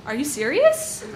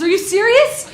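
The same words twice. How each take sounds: First: A light half-laughing are you serious; mild disbelief. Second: Much higher and louder are you serious; incredulous. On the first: To the mugger, half-laughing disbelief. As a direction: ask it as if it must be a joke. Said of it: "I asked". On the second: The mugger finding one dollar, loud incredulous. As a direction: blurt it in pure disbelief. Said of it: "his turn to be incredulous". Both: Retold or imitated.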